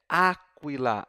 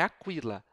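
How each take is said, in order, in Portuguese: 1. A tônica está na primeira sílaba. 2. A tônica está na segunda sílaba. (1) "é aquila, a sílaba é a anterior" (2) "não é aquila"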